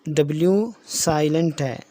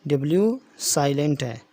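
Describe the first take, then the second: The two takes are said the same way.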